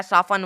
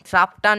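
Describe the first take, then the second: First: साफन with silent t, saa-fun; correct pronunciation. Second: साफ्टन with the t sounded; wrong pronunciation. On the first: Teacher contrasting wrong and right, साफन without t. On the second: Teacher contrasting wrong and right, साफ्टन with t. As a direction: say साफ्टन with a t, as the mistake. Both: Shown as a demonstration. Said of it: "इसमें भी टी जो है silent है".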